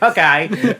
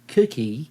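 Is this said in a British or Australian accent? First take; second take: Australian; British. First: It is said in an Australian accent. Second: It is said in a British accent.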